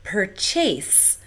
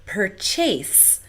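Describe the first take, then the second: First: The stress falls where Singapore English puts it. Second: The stress falls where Singapore English puts it.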